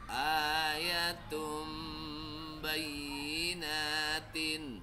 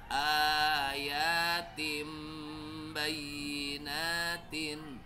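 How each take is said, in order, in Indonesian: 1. Vokal pertama pendek. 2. Vokal pertama panjang. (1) "sorry sorry" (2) "A-nya panjang juga"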